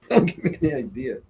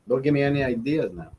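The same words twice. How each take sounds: First: Chuckling through the words; amused, half laughing; laughing repeat. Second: Said in the usual way. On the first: Real, not acted. Streamer answers a viewer's Heineken idea, laughing. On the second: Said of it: "repeats it laughing".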